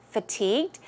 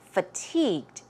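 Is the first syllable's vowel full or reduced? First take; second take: reduced; reduced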